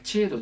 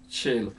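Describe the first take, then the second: First: The word begins with a 'ch' sound. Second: The word begins with an 'sh' sound. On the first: The speaker calls it wrong. "チェロじゃない" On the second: The speaker calls it right. "これは本物のシェロ"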